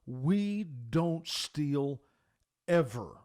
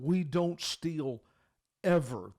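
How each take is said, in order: First: Slow, loud, each word hammered; emphatic. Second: Slowed and pressed, a firm father's rule; emphatic. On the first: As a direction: lay down the law to his son, word by word. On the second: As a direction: repeat it so the son can't miss it. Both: Retold or imitated. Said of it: "it was so emphatic".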